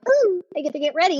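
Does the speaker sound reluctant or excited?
excited. It sounds excited and happy.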